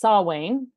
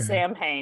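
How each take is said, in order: First: It is said with the Celtic pronunciation. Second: It is said like the metal band's name. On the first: It refers to the Celtic holiday. "the Celtic pronunciation" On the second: It refers to the metal band. "if you're saying the metal band"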